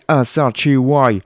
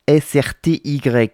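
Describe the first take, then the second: First: The letters are read with an American accent. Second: The letters are read with a French accent.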